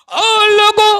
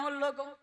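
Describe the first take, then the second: First: ओ लोगों called out high and loud, long vowels; calling out loud. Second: Said in the usual way. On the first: Shown as a demonstration. Preacher calling out to the congregation, loud high call. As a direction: shout ओ लोगों to the whole crowd. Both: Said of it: "repeated call louder".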